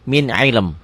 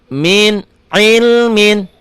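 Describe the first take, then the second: First: The word stops without the final -in sound. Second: The word ends with the full -in sound. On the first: The speaker calls it right. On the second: The speaker calls it wrong. "Ini dibaca apa adanya ya. Kalau baca Quran udah salah begitu"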